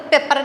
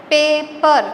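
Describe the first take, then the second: First: Said in the usual way. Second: "पेपर" broken into two beats, पे and पर; teacher's two-syllable breakdown of "पेपर"; split into syllables. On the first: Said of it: "पेपर नहीं बोल रहे हो". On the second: Shown as a demonstration. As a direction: sound out "पेपर" as पे, then पर. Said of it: "तोड़ दिया ना उसको".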